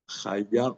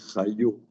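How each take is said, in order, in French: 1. La voyelle finale est un 'a' ouvert. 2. La voyelle finale est un 'o' arrondi. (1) "on ne dit pas chaya"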